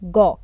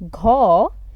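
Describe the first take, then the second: First: The syllable is said with reduced stress. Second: The syllable is said with full stress. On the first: The speaker calls it right. "its stress is reduced, we will pronounce it as gaw" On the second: The speaker calls it wrong. "instead of being pronounced as ghaw"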